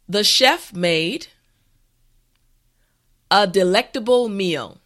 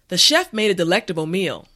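First: The sentence is said slowly and carefully. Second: The sentence is said at a natural pace. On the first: "this time repeat after me" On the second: "the last time at a regular pace"

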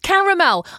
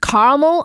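First: The middle vowel is pronounced, three syllables. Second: The middle vowel is dropped, two syllables. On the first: "I can clearly see the second A" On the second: "There is definitely an anti-vowel tendency amongst a lot of American pronunciations"

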